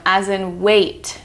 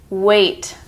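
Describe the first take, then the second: First: Said in the usual way. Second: "weight" with a clear A vowel; weight demo. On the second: Shown as a demonstration. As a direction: say "weight" crisply. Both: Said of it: "E I G H phonogram".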